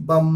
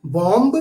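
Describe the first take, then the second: First: بم said as "bom", silent b; بم with no b after the m; correct bomb. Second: بومب said as "bomb" with the b sounded; بومب with the b pronounced; wrong bomb. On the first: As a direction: say بم short, ending on m. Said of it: "ہم اسے پڑھیں گے بی یو M بی". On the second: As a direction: say بومب with a clear final b, the mistaken way. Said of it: "غلط تلفظ ہے". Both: Shown as a demonstration.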